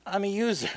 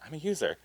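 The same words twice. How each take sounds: First: Punchline pitched higher, played up; the punchline as written. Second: Quiet flat mumble of the punchline; flat, deadpan read. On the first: Pitched-up comic punchline. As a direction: writer showing how the joke should land. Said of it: "the joke was that". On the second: Retold or imitated. Flat quiet infomercial line. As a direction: actress reciting the line with no joke in it. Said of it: "she just kept saying it so kinda like".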